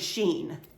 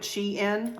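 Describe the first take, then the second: First: It is one syllable rhyming with seen. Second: It is two syllables, like she plus in. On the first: "it's definitely not apparently Sheen" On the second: "like she is in this outfit, Shein, like that"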